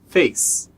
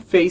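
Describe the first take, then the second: First: The word ends with a clipped s sound. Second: The word ends with an added vowel sound. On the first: The speaker calls it right. "face termina com som de s" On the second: The speaker calls it wrong. "A gente não fala o e, não é face"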